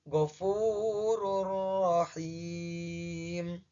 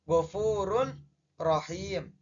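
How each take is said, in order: First: The n disappears into a doubled r sound. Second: The n is pronounced clearly before the r. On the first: The speaker calls it right. "bacanya menjadi ghafurur rahim" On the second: The speaker calls it wrong. "secara awalan bacanya ghafurun rohim"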